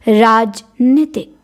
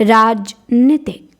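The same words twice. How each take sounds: No difference in how they are said.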